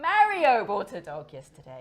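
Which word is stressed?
Mario. The word Mario carries the main stress. It was Mario, not Maria.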